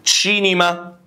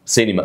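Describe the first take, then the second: First: "تشينيما" with initial ch, drawn out higher; demonstrated Italian pronunciation. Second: Said in the usual way. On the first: Shown as a demonstration. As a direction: model "تشينيما" clearly with a ch sound. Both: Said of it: "شوف ازاي؟".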